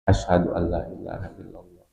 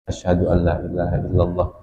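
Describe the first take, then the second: First: The phrase is said softly, in a low voice. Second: The phrase is said loudly, in a full voice. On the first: "sebelum jahar dia baca syir dulu"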